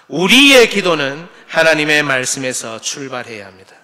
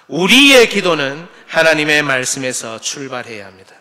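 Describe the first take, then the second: First: The stress is on 우리. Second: The stress is on 우리.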